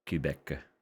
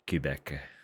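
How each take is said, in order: Both takes have the same delivery.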